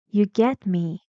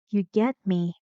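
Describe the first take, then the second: Both takes have the same delivery.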